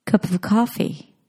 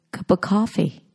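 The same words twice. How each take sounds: First: "of" in "Cup of coffee" said as a quick schwa; reduced function word. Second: "of" in "cup of coffee" cut to a bare "a" sound, "cuppa coffee"; further reduced "of". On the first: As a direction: link "Cup of coffee" with a weak "of". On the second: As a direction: squeeze "of" down to a schwa between "cup" and "coffee". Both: Shown as a demonstration. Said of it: "function words reduce into a schwa".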